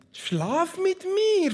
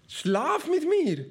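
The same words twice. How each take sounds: First: High, slow, hammed-up seductress; seductive demand. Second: High, slow hammed-up temptress; seductive demand. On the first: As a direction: drawl the invitation up high like a temptress. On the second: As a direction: draw it out sweetly and high. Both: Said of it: "forderte sie ihn auf".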